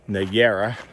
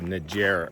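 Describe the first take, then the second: First: The J is not said like an English J. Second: The J is said like an English J. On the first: The speaker calls it right. "the J is not pronounced like a J" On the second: The speaker calls it wrong. "I think I said Niagara earlier"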